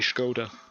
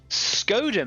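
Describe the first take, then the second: First: It begins with an sh sound. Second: It begins with a plain s sound.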